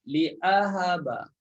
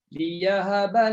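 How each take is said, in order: First: A glottal stop comes after 'li'. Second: A y sound comes after 'li'. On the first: "Dengan adanya hamzah" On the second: "Liya. Memang mudah gitu"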